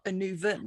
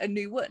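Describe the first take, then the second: First: The name is said with a V sound. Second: The name is said with a W sound. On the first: "in Welsh, the W would be often pronounced as a V" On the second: "but I I call it"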